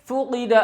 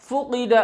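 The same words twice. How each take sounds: The two takes are said the same way.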